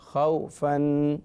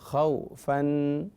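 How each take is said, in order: No difference in how they are said.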